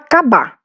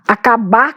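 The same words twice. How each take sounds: First: The word is said without its first vowel and final r. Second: The word is said with its first vowel and final r.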